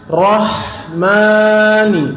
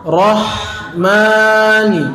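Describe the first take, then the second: No difference in how they are said.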